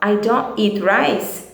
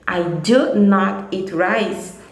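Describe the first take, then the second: First: It is said in a relaxed way. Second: It is said with firm emphasis.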